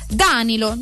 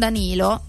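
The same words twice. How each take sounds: First: The stress is on the first syllable. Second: The stress is on the second syllable. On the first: The speaker calls it right. "metteva l'accento sulla prima sillaba" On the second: The speaker calls it wrong. "non Danilo"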